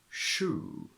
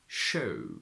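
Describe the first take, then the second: First: The oo is a pure long vowel. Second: The oo becomes an oh-like diphthong.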